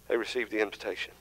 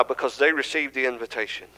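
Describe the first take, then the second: First: "They received the invitation" repeated softer and fast; soft, fast echo of the key line; quiet quick echo. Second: Key line stated with weight on "they"; stress on they. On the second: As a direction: stress "they" in "they received the invitation". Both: Shown as a demonstration.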